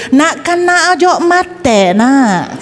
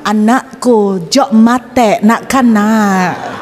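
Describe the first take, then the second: First: Put-on higher, slow Madurese accent. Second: Slow, lightly voiced Madurese accent. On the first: Preacher repeats the Madurese neighbour, higher Madurese accent. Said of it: "Kalau Madura kan gitu". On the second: Preacher imitates a Madurese neighbour, slow light Madurese accent. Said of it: "Kalau misalnya orang Madura yang ngomong".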